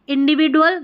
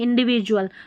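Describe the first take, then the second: First: The consonant before 'ual' is a plain 'd' sound. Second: The consonant before 'ual' is a 'j' sound. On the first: The speaker calls it wrong. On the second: The speaker calls it right.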